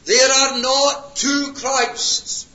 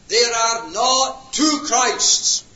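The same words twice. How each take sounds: First: Slow, higher, loud, each word hit; emphatic repetition. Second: Slow, loud words with a fall on "two"; emphatic preaching. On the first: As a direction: hammer "There are not two Christs" again. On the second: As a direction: drive home "not two Christs". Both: Real, not acted. Repeated emphatic claim.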